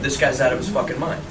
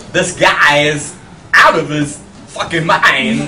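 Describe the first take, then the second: First: Said in the usual way. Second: Slow, louder, oddly paced Walken-style delivery; slow, halting imitation of the actor; Christopher Walken impression. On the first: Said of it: "say that sentence that I just said". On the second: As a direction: drag it out with strange pauses, imitating Walken. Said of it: "if Christopher Walken said it".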